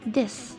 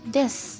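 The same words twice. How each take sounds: First: The final u vowel is dropped entirely. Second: The same.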